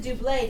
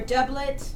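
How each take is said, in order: First: The final T sound is silent. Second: The final T sound is pronounced. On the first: "I think the T might be silent" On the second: "Or doublet?"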